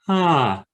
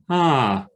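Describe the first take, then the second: First: The vowel starts cleanly, neither breathy nor abrupt. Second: The vowel starts cleanly, neither breathy nor abrupt.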